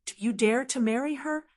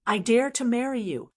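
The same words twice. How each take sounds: First: Higher pitch, rising at the end; lightly acted challenge, lifted into a question; challenging question. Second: Mildly bold statement, falling at the end; understated narrated defiance, landing on a fall; unbridled declaration. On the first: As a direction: throw the dare back with a rise on "her". Challenge thrown back as a question. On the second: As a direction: declare it as a dare, ending firmly down. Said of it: "regained his unbridled demeanor". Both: A narrator's reading.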